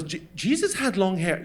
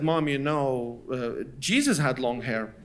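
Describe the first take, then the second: First: Stammered disbelief from mother; imitated scandalized mother; incredulous echo. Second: Low, soft, hesitant suggestion; quiet cautious argument; tentative plea. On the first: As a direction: throw it back as an offended question. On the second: Retold or imitated. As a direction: slip it in slowly and sheepishly. Child tentatively tries religious angle.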